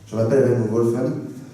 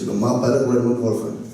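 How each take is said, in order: First: It is said in an English accent. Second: It is said in a southwestern French accent.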